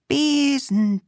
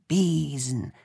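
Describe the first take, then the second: First: High called spell word; calling witch. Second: Said in the usual way. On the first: Acted. The witch begins her broom spell, calling high.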